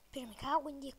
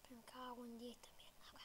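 First: Swearing out loud, frustrated; loud curse. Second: Whispered curse under the breath; cursing under breath. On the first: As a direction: blurt the curse louder. Fluch nach Treffer im Spiel. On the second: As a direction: hiss the swear quietly to yourself. Fluch während Horrorspiel. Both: Real, not acted.

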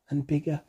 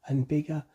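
No difference in how they are said.

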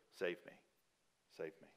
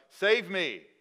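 First: "Save me" said softly, fading lower; hushed plea. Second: Loud, high cry of "Save me". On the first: Quiet repeat of the psalmist's plea. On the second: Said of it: "He cries out to God". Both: Retold or imitated.

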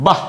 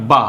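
First: বাহ said short and forceful with a breathy h ending; forceful visarga. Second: Said in the usual way. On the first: Shown as a demonstration. Teacher adding visarga to the syllable, বাহ said with force. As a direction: punch out বাহ, cut off on a puff of h. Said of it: "জোর দিয়ে বলবো". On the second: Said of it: "বয় আকার কি হয়?".

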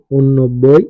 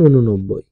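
First: ঊননব্বই as written, "un-nobboi", rising; spelling reading. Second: ঊননব্বই as "u-nu-nobboi", falling; spoken pronunciation. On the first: Teacher reads out a number's spelling, ঊননব্বই as "un-nobboi". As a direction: say ঊননব্বই with the two n's joined. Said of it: "বানান". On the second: Teacher demonstrates pronunciation, ঊননব্বই as "u-nu-nobboi". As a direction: put a short vowel between the n's of ঊননব্বই. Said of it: "উচ্চারণ". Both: Shown as a demonstration.

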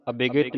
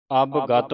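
First: ਅਭਿਗਤ with added i vowels, "abigit"; wrong pronunciation. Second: ਅਵਗਤ as "abgat", no i vowels; correct pronunciation. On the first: Teacher shows the misreading to avoid, ਅਭਿਗਤ as "abigit". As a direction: say ਅਭਿਗਤ in three syllables, a-bi-git. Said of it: "ਨਹੀਂ ਪੜ੍ਹਨਾ". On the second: Teacher tells congregation how to read, ਅਵਗਤ as "abgat". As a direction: say ਅਵਗਤ slowly in two syllables, ab-gat. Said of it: "ਅਵਗਤ ਪੜ੍ਹਨਾ ਹੈ". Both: Shown as a demonstration.

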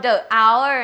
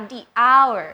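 First: THE as "duh" before hour; wrong article sound. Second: THE as "dee" before hour; correct article sound. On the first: Teacher ruling out a form for students, wrong article sound. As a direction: say "the hour" with a schwa in THE. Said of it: "ไม่เอา". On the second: Teacher correcting the form for students, correct article sound. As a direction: say "the hour" with an ee vowel in THE. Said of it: "ไม่เอา the hour นะคะ". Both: Shown as a demonstration.

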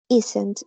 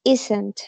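First: Isn't said as IZ-ent, stress on the first part; teacher models isn't as IZ-ent. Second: Isn't said as IZ-ent, falling at the end. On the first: Teacher models the contraction for the class, slow and clear. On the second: Teacher repeats the contraction for students, falling. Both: Shown as a demonstration. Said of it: "contracción se pronuncia".

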